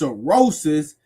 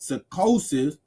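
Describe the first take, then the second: First: The name is said with an R before '-osis'. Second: The name is said with a K before '-osis'. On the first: This is the club's actual name. The speaker calls it right. "but it's cirrhosis" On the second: This is how the ancestor pronounced the name. The speaker calls it wrong. "he pronounced it psychosis"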